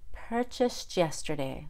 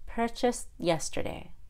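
First: The T and Y blend into a CH sound. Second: The T is held without being released. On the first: "First, I'll do the CH" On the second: "then the held T"

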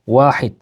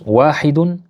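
First: The word ends on the d, no ending. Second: The word ends with an added -un ending. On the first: This is how it is said in everyday speech. "Ama pratikte ne derler?" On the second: This is how it is read in a text. "Metinde biz nasıl okuyoruz?"

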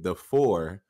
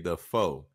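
First: The word ends with an R sound. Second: The word ends without an R sound. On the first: It is the standard way of saying it. "if you want to say correctly" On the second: It marks the local country way of talking. "we don't put the R in it. So we say the foe"

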